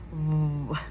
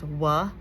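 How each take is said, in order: First: The consonant is clipped with no vowel after it. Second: The consonant is followed by an added uh vowel. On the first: The speaker calls it right. "it's just "w."" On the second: The speaker calls it wrong. "a lot of kids will say W says "wa,""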